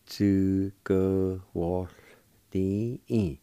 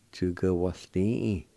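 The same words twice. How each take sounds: First: "Chữ cơ hỏa tín" slowly, each syllable drawn out; slow pronunciation demo. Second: Said in the usual way. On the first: Shown as a demonstration. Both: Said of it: "with W A like this".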